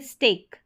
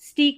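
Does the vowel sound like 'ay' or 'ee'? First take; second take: ay; ee. First: The vowel is an 'ay' sound. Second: The vowel is a long 'ee' sound. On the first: The speaker calls it right. "यहाँ पढ़ेंगे स्टेक" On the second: The speaker calls it wrong. "इसको स्टीक नहीं पढ़ेंगे"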